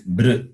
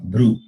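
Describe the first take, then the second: First: It ends in a plain r with unrounded lips. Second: It ends in an oo vowel with rounded lips. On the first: The speaker calls it right. "It is br, no rounding of your lips" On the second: The speaker calls it wrong. "not bru. There is no oof"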